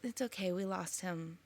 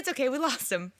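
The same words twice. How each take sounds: First: It is said in a sad, sorrowful tone. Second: It is said in a light, casual tone. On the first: The loss is felt as painful. "that way where she's sad" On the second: The loss does not seem to matter much. "She's just like"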